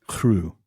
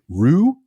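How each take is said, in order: First: The r at the start is breathy and trilled. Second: The r at the start is not trilled. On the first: The speaker calls it right. "Pronounce it as if it was H R. And trill it" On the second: The speaker calls it wrong. "I'm going to mess this up again"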